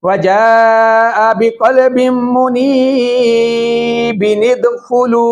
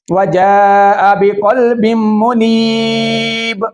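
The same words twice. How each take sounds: First: वजाअ बिक़ल्बिम मुनीबिन इदखुलू chanted slowly, linked by "bi-nid"; joined recitation. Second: वजाअ बिक़ल्बिम मुनीब chanted slowly, closing on a held "neeb"; recited with a stop. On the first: Teacher showing continuous reading, मुनीबिन इदखुलू chanted as one linked phrase. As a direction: carry मुनीबिन straight into इदखुलू without stopping. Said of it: "जब हम इसको continue पढ़ेंगे". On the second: Teacher reading up to the pause, मुनीब chanted to a closed stop. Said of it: "इसको हम कैसे पढ़ते हैं?". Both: Shown as a demonstration.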